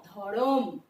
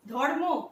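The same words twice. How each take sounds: First: ধরম, vowel between র and ম; ধরম said loosely, lower; ধরম, the cluster broken; vowel inserted. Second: ধর্ম with the cluster kept; ধর্ম, joined consonants; as spelled. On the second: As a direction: say ধর্ম as written. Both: Shown as a demonstration. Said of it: "দেখো".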